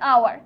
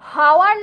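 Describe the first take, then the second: First: The word begins with a vowel sound. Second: The word begins with an h sound. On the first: The speaker calls it right. "হচ্ছে আওয়ার" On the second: The speaker calls it wrong. "হাওয়ার না হয়ে"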